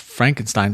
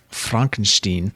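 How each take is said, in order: First: The name has its usual standard pronunciation. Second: The name has a deliberately altered pronunciation. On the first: The speaker calls it wrong. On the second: The speaker calls it right.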